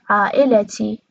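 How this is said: A vowel is heard between the l and t. "قطرش میشه عائلتی"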